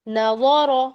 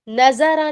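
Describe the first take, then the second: First: The consonant is said with the Arabic sound. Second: The consonant is said as a plain Urdu z. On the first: The speaker calls it right. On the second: The speaker calls it wrong.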